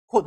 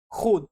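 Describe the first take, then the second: First: खुद with a short u, "khud"; spoken form. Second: खुद with a long oo, as "khood"; spelling pronunciation. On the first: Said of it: "के H यू D". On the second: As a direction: lengthen the u of खुद to oo. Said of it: "के H double ओ D". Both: Shown as a demonstration.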